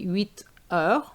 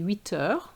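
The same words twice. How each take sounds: First: The two words are said separately, unlinked. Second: The two words are linked smoothly together. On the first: The speaker calls it wrong. "You can't say" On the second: The speaker calls it right. "you need to say huit heures, make it flow"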